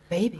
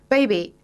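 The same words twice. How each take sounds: First: It is said in a put-on sexy voice. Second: It is said in a plain voice.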